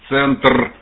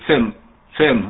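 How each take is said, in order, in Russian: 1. Слово заканчивается отчётливым звуком Р. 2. Слово заканчивается без звука Р на конце. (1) "букву R почетче" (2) "R в конце не слышно"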